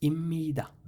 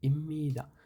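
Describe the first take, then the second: First: A doubled m sound replaces the p and n. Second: A doubled m sound replaces the p and n.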